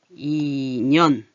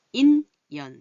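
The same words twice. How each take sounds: First: 인연 said slowly and louder as i-nyeon; linked pronunciation. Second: 인연 said clearly, loud and separate; spelled form. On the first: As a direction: stretch 인연 so the ㄴ carries over. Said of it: "이렇게 들려요". (인연을 이년처럼 길게 발음) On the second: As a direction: say 인연 as the written word, syllable by syllable. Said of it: "인연 이렇게 해야지 돼요". (인연을 또박또박 뜻대로) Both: Shown as a demonstration.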